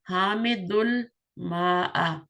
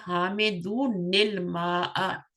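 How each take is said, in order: First: The words join directly with no 'n' sound. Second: The words link through an added 'ni' sound. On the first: The speaker calls it wrong. "इसको इस तरह पढ़ना सही नहीं है" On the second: The speaker calls it right. "नून के नीचे जेर लगाएं"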